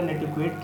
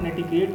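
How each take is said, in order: First: The middle sound is k followed by w. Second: The middle sound is a plain k.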